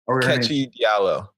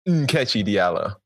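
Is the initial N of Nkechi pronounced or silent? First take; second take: silent; pronounced. First: The initial N sound is dropped or barely heard. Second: The initial N sound is clearly pronounced. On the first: The speaker calls it wrong. "No, the N makes a sound" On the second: The speaker calls it right. "There we go"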